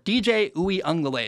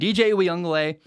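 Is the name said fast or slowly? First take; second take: slowly; fast. First: The name is said at a slow pace. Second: The name is said at a quick pace.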